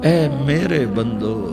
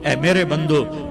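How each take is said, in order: First: It is said in a tender, loving tone. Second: It is said in a plain, neutral tone. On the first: The speaker calls it right. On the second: The speaker calls it wrong.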